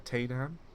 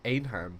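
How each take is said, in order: First: The word begins with a sounded T. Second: The word begins without any T sound.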